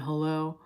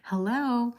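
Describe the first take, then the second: First: It is said in a plain, casual everyday voice. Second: It is said in a polished, polite phone voice. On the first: This answers the phone without manners. The speaker calls it wrong. "if I were to dare answer the phone" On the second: This is the proper way to answer the phone. The speaker calls it right. "in the phone voice"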